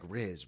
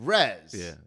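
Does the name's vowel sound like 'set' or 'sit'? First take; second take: sit; set. First: The vowel sounds like the one in 'sit'. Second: The vowel sounds like the one in 'set'. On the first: The speaker calls it wrong. "I was thinking Riz like R I Z, and that's not right" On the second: The speaker calls it right. "It's Rez"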